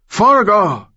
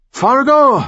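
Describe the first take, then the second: First: Desperate high scream. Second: Screaming. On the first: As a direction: scream the name in rage. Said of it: "Rivera screamed". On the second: Blinded villain screams again. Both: A narrator's reading.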